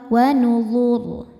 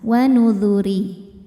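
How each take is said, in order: First: The word ends in a heavy, thick r sound. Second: The r is light and followed by i. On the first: The reading stops at this word. "dibaca secara tafkhim, maka ro-nya tebal" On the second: The reading continues into the next verse. "maka ro-nya tipis kalau diteruskan"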